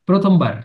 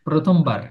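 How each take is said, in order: No difference in how they are said.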